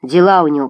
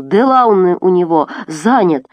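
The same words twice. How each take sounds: First: Said in the usual way. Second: Put-on raised voice in a Caucasian accent; accented angry echo. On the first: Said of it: "поясняет Гвоздь". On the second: A narrator's reading. Abdul reporting the escape to Murat, Caucasian-accented shout. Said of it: "кричит Мурату Абдул".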